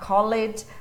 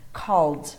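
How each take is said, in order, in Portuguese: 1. A terminação é uma sílaba extra. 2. A terminação é só um som de D. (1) "Você não vai falar called" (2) "e sim"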